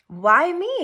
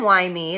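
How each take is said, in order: First: It sounds curious and upbeat. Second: It sounds self-pitying like a victim. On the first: The speaker wonders what can be learned. The speaker calls it right. "hmm, why me? I wonder. ... It's the curiosity. It's the up" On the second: The speaker feels sorry for herself. The speaker calls it wrong. "Instead of the victim"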